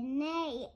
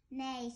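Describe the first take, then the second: First: Loud, higher neigh from a goose; full-might neigh. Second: Said in the usual way. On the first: A narrator's reading. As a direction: neigh with all your might, for a children's story. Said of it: "with all her might". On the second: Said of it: "said the horse".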